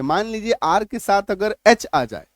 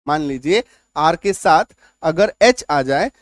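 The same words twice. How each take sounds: First: Said in the usual way. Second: Slower, lower, with a rise on "एच"; slow teacher's emphasis, rising on "एच"; slow emphatic repeat. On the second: Shown as a demonstration. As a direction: lean on "एच" and lift it at the end.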